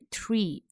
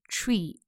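First: It begins with a t sliding into r. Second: It begins with a ch sound like Chinese chi. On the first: The speaker calls it right. "注意是tree" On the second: The speaker calls it wrong. "而不是发成我们汉语拼音吃的发音发成tree"

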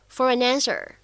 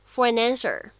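First: The three words are linked together. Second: The same.

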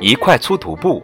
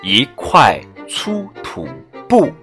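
First: It is said at a faster pace. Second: It is said at a slower pace.

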